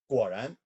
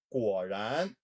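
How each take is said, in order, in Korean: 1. 이 단어는 빠르게 발음됩니다. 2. 이 단어는 느리게 발음됩니다.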